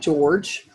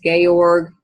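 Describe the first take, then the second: First: The name is said like English George. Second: The name is said the Eastern European way. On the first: The speaker calls it wrong. "looks like George" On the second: The speaker calls it right. "so the pronunciation is"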